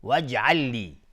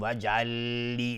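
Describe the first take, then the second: First: وجعل لی with the two lams merged, no nasal; right assimilated وجعل لی; correct reading. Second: وجعل لی with a stop between the lams; wrong reading. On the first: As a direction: join وجعل لی smoothly into one doubled lam. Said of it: "نه، وجعل لی". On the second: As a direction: pause wrongly before لی in وجعل لی. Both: Shown as a demonstration.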